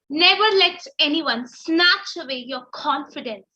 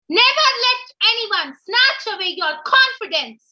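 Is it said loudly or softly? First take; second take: softly; loudly. First: It is said softly and sincerely. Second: It is said loudly, almost yelled.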